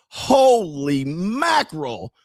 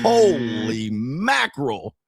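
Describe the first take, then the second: First: Stunned. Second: Stunned, laughing. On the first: Acted. Stunned by the show. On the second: Retold or imitated. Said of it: "I was like".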